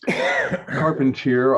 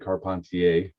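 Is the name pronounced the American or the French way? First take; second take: American; French. First: The name is pronounced in an American way. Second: The name is pronounced in a French way.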